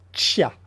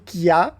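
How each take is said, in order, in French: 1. Le mot commence par un son tch. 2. Le mot commence par un son k dur. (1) "comme s'il y avait un T devant" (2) "Est-ce que c'est kia?"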